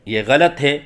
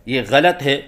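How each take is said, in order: Both takes have the same delivery.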